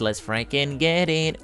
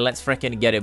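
First: Slow, quiet, drawn-out mutter to himself; quiet, slow hype. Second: Said in the usual way. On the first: Real, not acted. To himself before the big pot, slow quiet hype.

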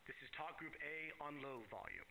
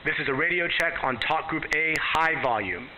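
First: Faint voice over a radio; quiet radio check played back; radio at low volume. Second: Radio at high volume. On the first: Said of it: "and I go to low volume". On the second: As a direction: voice heard over a radio. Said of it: "go all the way to high volume". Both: Shown as a demonstration.

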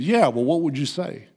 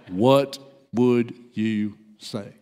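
First: Said in the usual way. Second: Low, slow, one word at a time; slow insistence. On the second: Retold or imitated. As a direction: press the question with a pause after each word.

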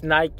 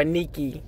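First: Nike said as NYK, cut short; Nike with an "eye" vowel; slip to brand pronunciation. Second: Nike corrected to NEE-kee; Nike with an EE first vowel; Greek pronunciation. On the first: Real, not acted. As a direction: mistakenly start Nike with a long I. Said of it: "uh, Nike". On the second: Shown as a demonstration. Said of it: "the Greek goddess".

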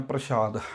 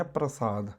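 First: ਪ੍ਰਸ਼ਾਦ said "prashaad", with sh; sh sound. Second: ਪ੍ਰਸਾਦ said "prasaad", with s; plain s sound. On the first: Teacher shows how many misread it, ਪ੍ਰਸ਼ਾਦ with sh. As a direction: put a hushing sh in the middle of ਪ੍ਰਸ਼ਾਦ. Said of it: "ਪੱਪੇ ਦੇ ਪੈਰ 'ਚ ਬਿੰਦੀ". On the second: Teacher gives the word meaning grace, soft ਪ੍ਰਸਾਦ with s. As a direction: keep a clean s in ਪ੍ਰਸਾਦ, softly. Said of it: "ਇਹ ਹੈ". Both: Shown as a demonstration.

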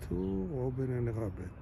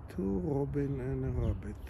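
The two takes are said the same way.

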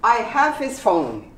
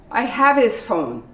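First: Said in the usual way. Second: "his" cut to a quick "is"; reduced his. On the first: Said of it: "they get really shortened". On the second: Shown as a demonstration. Teacher showing "his" shortened in speech. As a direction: blend "have his" into "havis". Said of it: "get pronounced as is".

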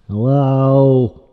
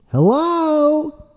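First: Loud, level attention call. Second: Loud, high-pitched attention call; insistent calling. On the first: Trying to get Mister Dude's attention, loud call. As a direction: call out firmly to someone ignoring you. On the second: Demanding Mister Dude answer, high insistent call. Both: Pretend.

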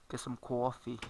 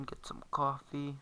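First: "coffee" as "cwaw-fee" in a Long Island accent; playful Long Island accent, rounded "cawffee". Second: Said in the usual way. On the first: Shown as a demonstration. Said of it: "Long Island accent".

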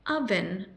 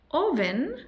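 First: "oven" said UH-vun with a short u; "oven" starting with a short uh sound; correct pronunciation. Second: "oven" said OH-ven with a Spanish o; "oven" read as written, round o; wrong spelling pronunciation. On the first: Teacher modelling the right way: "oven" with a short u. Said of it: "con una U corta". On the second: Teacher showing the mistake: "oven" as oh-ven. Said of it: "No es oven". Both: Shown as a demonstration.

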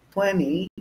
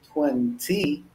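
First: "Twenty" with the second T dropped, like "twenny"; American "Twenty", silent second T. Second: "twenty" with a crisp second T; British-style "twenty", T fully pronounced. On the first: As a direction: say "Twenty" as "twenny", higher pitched. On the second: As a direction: sound both Ts in "twenty". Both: Shown as a demonstration. Demonstrates two pronunciations of each number.

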